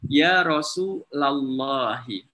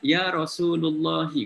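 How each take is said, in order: First: The vowel after 'Rasul' is an 'a' sound. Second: The vowel after 'Rasul' is a 'u' sound. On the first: This follows Arabic grammar for addressing someone. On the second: This is the usual Indonesian way of saying it. "Kalau dalam bahasa Indonesia"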